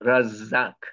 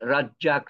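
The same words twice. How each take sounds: First: The middle consonant is a non-Bengali z-like sound. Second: The middle consonant is the usual Bengali j. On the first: The speaker calls it right. "বাংলাতে কোনো জ নাই" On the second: The speaker calls it wrong. "রাজ্জাক না কিন্তু"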